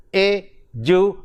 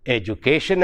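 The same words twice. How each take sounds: First: "education" in separate syllables, pausing between each, strong "ca"; e ... du ... CA-tion, for "education"; stress on penultimate syllable. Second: Said in the usual way. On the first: Shown as a demonstration. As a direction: break up "education" and lean on "ca". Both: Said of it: "So we pronounce the word".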